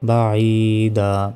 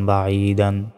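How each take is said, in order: First: The word ends on a long vowel. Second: The word ends with an n sound. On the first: The reader stops on this word. "থামলে বাঈদা" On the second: The reading continues without stopping. "দুই জবর দান বাঈদান"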